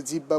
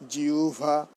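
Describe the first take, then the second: First: জিহ্বা said "jibba", doubled b; common mispronunciation. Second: জিহ্বা as "jiu-bha", with a glide; correct pronunciation. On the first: Teacher quoting what many people say, wrong "jibba". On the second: Teacher modelling the word for students, careful "jiu-bha". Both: Shown as a demonstration. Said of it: "এটা বলা যাবে না".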